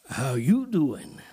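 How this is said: It is said in a suggestive, flirtatious tone. It is a cheesy pickup line. "If I changed the intonation and said, Whole different meaning. Sound like Joey"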